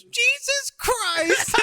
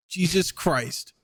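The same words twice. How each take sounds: First: Put-on very high, stretched-out child voice; copycat kid. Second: Slow, drawn-out muttered amazement; stunned dad. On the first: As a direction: mimic a little kid parroting dad, squeaky and slow. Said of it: "then his kid just goes". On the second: Retold or imitated. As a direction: imitate a man taken aback, stretching the words. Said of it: "he just goes".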